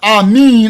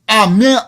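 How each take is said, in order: First: The last vowel sounds like 'ee'. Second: The last vowel sounds like 'eh'. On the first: "I won't say" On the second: "I won't say"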